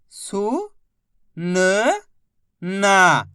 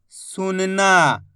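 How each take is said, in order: First: सु, न, ना held apart; syllable by syllable. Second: सुनना joined slowly, long ना; blended word. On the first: Teacher modelling reading, सु, न, ना sounded out separately. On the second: Teacher modelling reading, सुनना said slowly whole. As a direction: blend सुनना without breaks. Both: Shown as a demonstration. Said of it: "बस इसी तरीके से".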